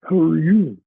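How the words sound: It is an alien zombie's underbite voice.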